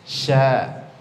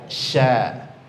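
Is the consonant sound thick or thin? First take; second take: thin; thin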